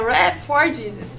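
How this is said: It is pronounced the English way. "tá em inglês, então é Rap for Jesus"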